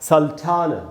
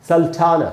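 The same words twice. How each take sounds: The two takes are said the same way.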